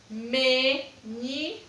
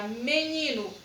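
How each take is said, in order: First: MENINO slowly split into ME, NI, NO; teacher sounding out ME... NI... NO; three separate syllables. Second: Said in the usual way. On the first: Shown as a demonstration. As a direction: say MENINO in three beats with pauses. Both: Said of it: "Três sílabas".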